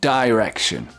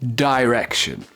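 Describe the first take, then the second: No difference in how they are said.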